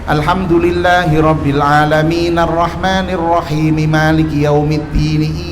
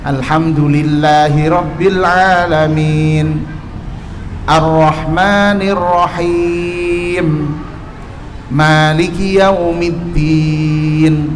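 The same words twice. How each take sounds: First: The verses run together without any pauses. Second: There is a short pause after each verse. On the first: The speaker calls it wrong. "saya kasih contoh yang tidak terputus" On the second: The speaker calls it right. "Ada jedahnya antar antar ayat"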